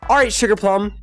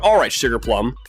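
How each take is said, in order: First: It is said in a high-pitched voice. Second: It is said in a normal voice.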